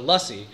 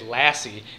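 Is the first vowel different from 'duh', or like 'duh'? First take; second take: like duh; different. First: The first vowel is like the 'u' in 'duh'. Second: The first vowel is unlike the 'u' in 'duh'. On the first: The speaker calls it right. "that's lussie and as in duh" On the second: The speaker calls it wrong. "why it's racist for Giada to say lassie instead of lussie"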